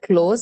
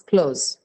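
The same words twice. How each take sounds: First: The vowel stays as one steady sound. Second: The vowel glides as a diphthong. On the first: The speaker calls it wrong. "It's not close" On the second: The speaker calls it right. "it's close"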